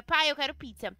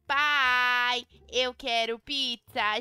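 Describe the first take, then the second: First: Said in the usual way. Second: "Pai, eu quero pizza" louder, slow and drawn out; louder insisting. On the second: Acted. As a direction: insist on the pizza, calling dad.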